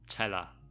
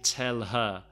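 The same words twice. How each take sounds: First: The h sound in 'her' is dropped. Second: The h sound in 'her' is clearly pronounced. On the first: "No H" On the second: "we don't often say tell her"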